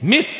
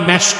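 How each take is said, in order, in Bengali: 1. শব্দটি 'i' দিয়ে বলা হয়। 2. শব্দটি 'e' দিয়ে বলা হয়। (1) "উচ্চারণটা কি?" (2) "যেটাকে আপনারা ভুল বলেন মেশক"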